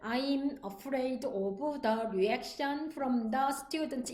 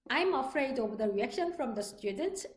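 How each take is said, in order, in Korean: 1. 이 문장은 느리게 말해요. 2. 이 문장은 빠르게 말해요. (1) "이렇게 하는 것보다는" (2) "이런 식으로 빨리빨리"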